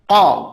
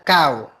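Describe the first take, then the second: First: The vowel is a plain, steady o sound. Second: The vowel glides from a to u. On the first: The speaker calls it right. "Pakai ko ya" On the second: The speaker calls it wrong. "tadi terkesan kayak kau gitu ya"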